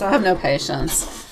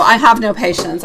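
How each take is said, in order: First: Softer, slower repeat to herself. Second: Said in the usual way. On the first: Real, not acted. Reader repeats her impatience to herself, softly and slowly. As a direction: say it again, quietly and slowly, to yourself.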